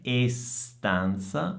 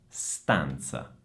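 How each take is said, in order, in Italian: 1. Prima della S iniziale c'è un suono vocalico in più. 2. La parola inizia direttamente con il suono S. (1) "non è estanza" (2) "ma è stanza"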